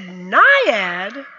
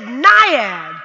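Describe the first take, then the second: First: Naiad? asked with a rising, puzzled tune; the coach repeats "Naiad?" in disbelief, rising at the end; surprised question. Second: Said in the usual way. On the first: Retold or imitated. Coach at the pool echoing her name as a rising question. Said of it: "He said". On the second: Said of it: "I said".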